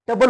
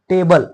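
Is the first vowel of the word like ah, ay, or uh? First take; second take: uh; ay. First: The first vowel is a short uh sound. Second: The first vowel is an ay sound. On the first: The speaker calls it wrong. "टबल होते का" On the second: The speaker calls it right. "तर हे टेबल"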